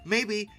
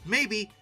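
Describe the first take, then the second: No difference in how they are said.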